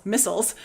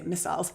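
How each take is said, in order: First: Said in the usual way. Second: "missiles" said miss-isles, long I; "missiles" with Canadian miss-EYE-uls vowel; Canadian pronunciation. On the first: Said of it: "I'm gonna say missiles". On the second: Real, not acted. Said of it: "excuse my Canadian accent".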